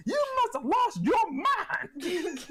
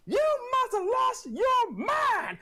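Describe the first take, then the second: First: High, slow laughing scold; scolding mom. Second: High shouted, slowed scold; scolding mom. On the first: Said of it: "while smacking". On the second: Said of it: "something my mom would say". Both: Retold or imitated.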